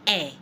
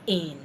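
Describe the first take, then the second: First: It is said with a French vowel sound. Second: It is said like the English word in. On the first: The speaker calls it right. "to say in in French, you say eh" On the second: The speaker calls it wrong. "not in"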